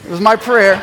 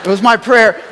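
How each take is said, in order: First: Laughing. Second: My pushed firmly, no laugh; stress on my. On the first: Repeats boast with laugh. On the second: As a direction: lean on the word my with pride. Repeats boast firmly. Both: Real, not acted.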